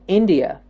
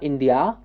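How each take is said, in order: First: The final syllable has a short, reduced vowel. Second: The final syllable has a full, open vowel. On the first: The speaker calls it right. "but that is a neutral way of pronouncing it" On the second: The speaker calls it wrong. "It's not India"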